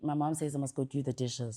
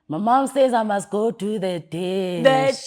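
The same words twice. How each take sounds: First: It is said at a normal pace. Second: It is said slowly, sounding tired.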